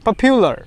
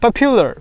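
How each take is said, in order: No difference in how they are said.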